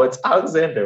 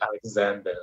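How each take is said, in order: First: Said in the usual way. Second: Alexander said the Israeli way; Israeli accent. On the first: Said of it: "I refuse to say English words in an Israeli accent". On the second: Shown as a demonstration. Refusing the local pronunciation, Israeli-accented Alexander. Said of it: "English words in an Israeli accent".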